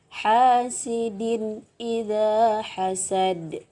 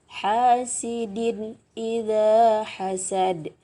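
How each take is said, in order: Both takes have the same delivery.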